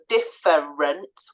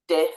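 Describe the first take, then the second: First: The middle vowel is said fully and clearly. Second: The middle vowel is reduced and barely heard. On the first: "We don't normally hear that" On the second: "We usually hear difference"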